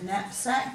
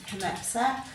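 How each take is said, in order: First: The word begins with an N sound. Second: The word begins with a K sound. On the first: This is how the word is said today. "silent K" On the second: This is how the word was once said. "They would have once pronounced that K"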